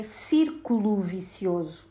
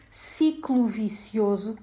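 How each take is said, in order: First: "círculo vicioso", with CÍRCULO in three syllables; correct form. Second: "ciclo vicioso", saying CICLO in place of círculo; mistaken form. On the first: Presenter correcting a language myth, correct form "círculo vicioso". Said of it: "A expressão correta é". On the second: Presenter citing a myth of Portuguese, mistaken form "ciclo vicioso". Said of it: "um grande mito da língua portuguesa". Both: Shown as a demonstration.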